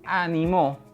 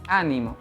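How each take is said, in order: First: The stress is on the third syllable. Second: The stress is on the first syllable. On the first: It is the past-tense form meaning someone encouraged. "si yo decido cambiar el acento en la última sílaba" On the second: It is a noun meaning cheer or encouragement. "Si yo el acento lo coloco en la primera sílaba"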